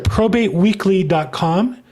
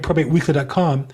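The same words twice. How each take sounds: First: It is said more slowly. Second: It is said quickly.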